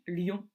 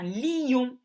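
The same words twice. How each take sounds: First: The vowels merge into a single syllable. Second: The vowels are split into two syllables. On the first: This is the everyday pronunciation. "C'est donc une synérèse quand je dis lion" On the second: This is a poetic reading that stresses both vowels. "on peut séparer la prononciation de ces voyelles"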